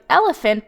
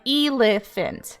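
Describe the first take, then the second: First: The first vowel is a short E sound. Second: The first vowel is a long E sound. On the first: The speaker calls it right. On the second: The speaker calls it wrong.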